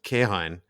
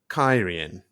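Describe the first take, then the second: First: The name begins with a 'keh' sound. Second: The name begins with a 'kai' sound. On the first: The speaker calls it wrong. "what thus far I've called" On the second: The speaker calls it right. "is actually"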